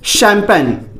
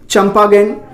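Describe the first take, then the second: First: It starts with 'sh' and has two syllables. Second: It starts with 'ch' and has three syllables. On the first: The speaker calls it right. "इसका जो सही उच्चारण है" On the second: The speaker calls it wrong. "लेकिन एक्चुअल में यह नहीं है।"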